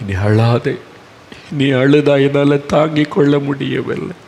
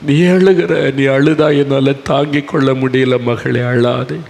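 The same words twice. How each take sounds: First: A touch of tender reassurance; gentle comfort. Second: Rising earnest plea that fades back; impassioned comfort. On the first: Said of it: "இயேசு சொன்னார்". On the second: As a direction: cry out don't weep, my daughter. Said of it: "அதுதான் இயேசுவனுடைய மனதுருக்கம்". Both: Acted.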